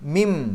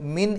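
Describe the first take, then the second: First: The word ends with an m sound. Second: The word ends with an n sound. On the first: The speaker calls it right. "മീമിലേക്കാണ് പോകേണ്ടത്" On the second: The speaker calls it wrong. "മിൻ എന്ന് പറയരുത്"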